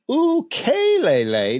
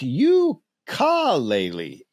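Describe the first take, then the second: First: The word uses its native Hawaiian pronunciation. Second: The word uses a common anglicized pronunciation. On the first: The speaker calls it right. "the name of the most popular Hawaiian instrument is ukulele" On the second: The speaker calls it wrong. "not ukulele, as often is mispronounced"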